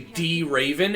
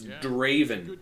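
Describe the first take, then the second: First: The D is said as a separate letter name. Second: The D is a short duh sound blended in. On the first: The speaker calls it wrong. "they'll pronounce, like, the D, like, completely" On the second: The speaker calls it right. "it's Raven with the duh in front of it"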